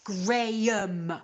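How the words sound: It is said with a British pronunciation. The speaker calls it right. "It's pronounced Graham"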